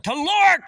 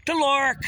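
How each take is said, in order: First: Said in the usual way. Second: Teloric repeated alone, much higher and louder; stressed term. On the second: Real, not acted. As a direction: call out "Teloric" high and strong.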